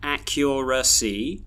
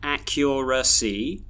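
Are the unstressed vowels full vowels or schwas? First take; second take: full vowels; full vowels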